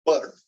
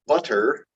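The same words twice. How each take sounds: First: Said in the usual way. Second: "Butter" drawn out with a fully released middle T; unflapped T. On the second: Shown as a demonstration. Teacher showing what she doesn't say, "Butter" with a hard T. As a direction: sound a true, aspirated T inside "Butter". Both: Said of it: "I don't say butter".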